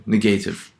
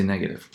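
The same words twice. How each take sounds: First: Negative stressed on the first syllable; wrong stress on negative. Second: "negative" with the accepted stress pattern; correct stress on negative. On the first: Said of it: "we don't say negative". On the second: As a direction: say "negative" the right way, stress on the first syllable. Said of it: "We say negative". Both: Shown as a demonstration.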